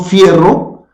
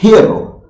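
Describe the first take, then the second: First: The word begins with an f sound. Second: The word begins with a breathy h sound. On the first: This is the oldest form of the word. "empezó siendo fierro" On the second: The hard f sound was replaced by breath. "se aspiró"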